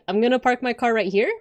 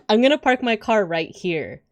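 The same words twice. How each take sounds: First: The voice rises at the end like a question. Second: The voice falls at the end like a statement. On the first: The statement sounds like a question. "uptalk would be like" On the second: It is a plain statement. "instead of saying like"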